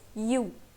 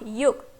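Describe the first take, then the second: First: The word ends without a k sound. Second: The word ends with a k sound. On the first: The speaker calls it right. "it's you" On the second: The speaker calls it wrong. "it's not yuk"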